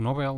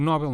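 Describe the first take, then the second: First: "Nobel" with a dark final L; rejected pronunciation. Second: "Nobel" as this speaker usually says it, pitched up; preferred pronunciation. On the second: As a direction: say "Nobel" with a lifted, emphatic contrast. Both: Shown as a demonstration. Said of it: "não digo Nobel".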